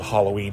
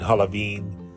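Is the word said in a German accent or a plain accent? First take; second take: plain; German. First: It is said in a plain American accent. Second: It is said with a German accent.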